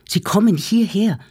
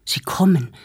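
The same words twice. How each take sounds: First: Rising alarm. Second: Panting, urgent first warning; breathless alarm. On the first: Arnost warns his family the Germans are coming, panicked. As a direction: push the alarm up a notch, still winded. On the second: Arnost bursts into the room, out of breath, warning. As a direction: gasp it out, winded from running. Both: Acted. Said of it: "schwer atmend".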